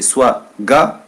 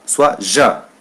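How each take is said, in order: First: Ga with a hard g sound; hard g as in gâteau. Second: Ja with a soft j like French je; soft j as in jardin. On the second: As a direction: say ja with a soft zh sound. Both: Shown as a demonstration. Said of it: "deux façons de prononcer".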